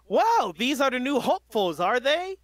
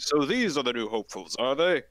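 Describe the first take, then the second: First: High, loud radio announcer hero; All Might voice. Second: All Might voice. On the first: Acted. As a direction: boom it like a radio host. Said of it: "radio mic voice for All Might". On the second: Shown as a demonstration. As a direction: lower hero voice. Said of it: "You gotta go deeper".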